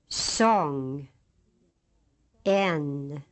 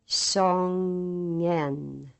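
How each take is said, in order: First: The two syllables are said apart with a pause. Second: The two syllables are joined without a pause. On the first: "say the two syllables separately" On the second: "Then slowly bring them together"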